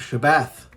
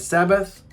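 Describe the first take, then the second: First: It begins with sh and ends with th. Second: It begins with s and ends with th. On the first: This follows the Hebrew letters accurately. "Shabbath is the sound you should hear" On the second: This is how Christians say it. "Why don't we say Sabbath like the Christians do?"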